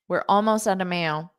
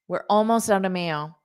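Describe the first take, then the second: Both takes have the same delivery.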